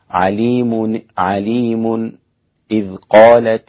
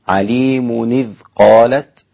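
First: A brief silent stop comes just before إذ. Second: The words run together with no break before إذ. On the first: This is another accepted reading tradition. "فالسكت يكون عليم إذ قالت" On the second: This is one accepted reading tradition. "ورش يقرأ عليم إذ قالت"

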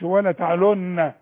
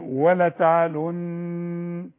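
First: The last word ends on a vowel. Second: The last word ends on a held n sound. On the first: The speaker calls it wrong. "اذا وقفت ما تقولش ولا تعلن" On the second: The speaker calls it right. "تقول ولا تعلن، خلي لسانك فوق"

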